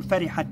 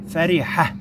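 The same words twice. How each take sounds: First: فرحة as "farihatan", T voiced and final N held; tanween pronunciation. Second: فرحة as "farihah", ending on a soundless-vowel H; pausal form. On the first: Teacher demonstrating the voweled ta, tanween pronunciation. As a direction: let the nasal N ending of فرحة ring long. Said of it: "وهي متحركة بالتنوين نقول". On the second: Teacher showing how to pause on it, pausal form. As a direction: stop فرحة on a breath of H, with no T or N. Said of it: "وقفنا عليها بالسكون". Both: Shown as a demonstration.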